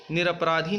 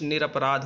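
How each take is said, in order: First: निरपराधी, with a long i at the end; निरपराधी ending in -dhi; wrong form. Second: निरपराध, ending on dh with no vowel; निरपराध cut off after dh; correct form. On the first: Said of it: "निरपराधी नहीं होता". (गलत रूप निरपराधी) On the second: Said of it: "निरपराध होता है". (सही रूप निरपराध) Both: Shown as a demonstration.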